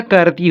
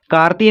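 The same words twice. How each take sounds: First: करती with a short first vowel, "kur-tee"; correct short first vowel. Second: कार्ती with a long aa, "kaar-tee"; wrong long first vowel. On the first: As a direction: keep the first syllable of करती brief and neutral. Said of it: "करती होता है ना". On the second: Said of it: "कार्ती नहीं होता". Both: Shown as a demonstration.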